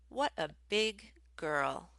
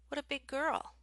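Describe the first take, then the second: First: The words are said apart without linking. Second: The final consonants run straight into following words.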